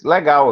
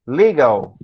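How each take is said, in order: First: Said in the usual way. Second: Legal said the English way, like leegal; English Legal, stress on the first syllable; English pronunciation. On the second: Shown as a demonstration. Teacher contrasting English Legal with Portuguese. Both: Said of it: "Em português".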